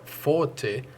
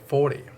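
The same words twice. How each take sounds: First: It has a British crisp t sound. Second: It has an American flapped t sound.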